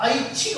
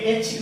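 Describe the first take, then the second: First: ऐच्छिक opening on the glide 'ai'; correct pronunciation. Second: ऐच्छिक opening on a plain 'e'; mispronunciation demo. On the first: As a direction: say ऐच्छिक as a-ich-chhik. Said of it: "तो ऐ की मात्रा लगेगी". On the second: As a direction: say ऐच्छिक wrongly as ech-chhik. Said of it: "ये ऐच्छिक नहीं होता". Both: Shown as a demonstration.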